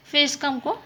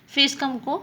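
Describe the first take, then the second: No difference in how they are said.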